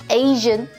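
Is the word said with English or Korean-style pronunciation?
English. It is said with English pronunciation. The speaker calls it right.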